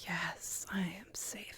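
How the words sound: It is said with calm, peaceful quiet.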